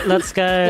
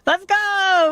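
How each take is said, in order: First: It is said flatly with little energy. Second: It is shouted with lots of energy.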